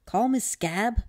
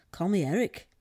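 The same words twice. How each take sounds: First: Higher, louder little voice; perky high-pitched growth voice; small creature voice. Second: Nearer the usual pitch, projected; matter-of-fact storybook reply; as natural as possible. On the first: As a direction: introduce yourself as a tiny creature. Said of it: "the voice said". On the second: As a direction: answer naturally, as yourself. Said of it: "Eric said naturally as he could". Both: A narrator's reading.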